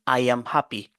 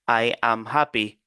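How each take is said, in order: First: The words run together with an added linking sound. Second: Each word is said separately, without linking. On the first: "pour le natif, il va vous dire ... c'est comme si vous entendez ici un ajout" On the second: "Pour un débutant, c'est comme ça, vous allez dire"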